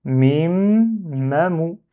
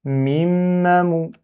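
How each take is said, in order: First: "Mim, mamou" with long m, then a slight break; syllables split. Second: Higher "mim, mamou" as one drawn-out word; syllables joined. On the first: Teacher showing block and continue, "Mim, mamou" in two parts. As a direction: hold "Mim" and restart on "mamou". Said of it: "je bloque et je continue". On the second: Teacher reading with the divider erased, "mim, mamou" linked. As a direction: hum the m of "mim" straight into "mamou". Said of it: "j'efface lui pour lire". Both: Shown as a demonstration.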